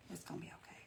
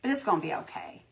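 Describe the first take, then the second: First: Whispered to herself, no voice; soft whisper. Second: Said in the usual way. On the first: Real, not acted. Host whispering self-reassurance while painting nervously. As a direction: reassure yourself in a whisper, under your breath.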